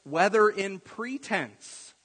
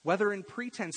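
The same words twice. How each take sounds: First: "Whether" stressed, slow, high and loud. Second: "whether" repeated at normal pace and a softer level. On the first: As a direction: lean hard into "Whether in pretense", slowly. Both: Shown as a demonstration. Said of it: "But he says".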